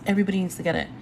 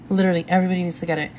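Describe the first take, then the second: First: Said in the usual way. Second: Very fast, rattled-off insistence; rushed insistence. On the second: Real, not acted. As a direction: blurt it out all in one breath. Urging viewers to buy ebook.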